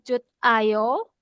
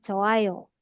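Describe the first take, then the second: First: A t sound is heard before 'ayo'. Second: No consonant is heard before 'ayo'. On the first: The speaker calls it wrong. "atau Jut Ayo" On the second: The speaker calls it right. "tapi bacanya Joayo"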